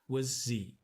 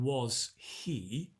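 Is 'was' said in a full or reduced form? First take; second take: reduced; full. First: The word 'was' is reduced and shortened. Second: The word 'was' is said in full. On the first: "we contract the was" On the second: "instead of saying was he"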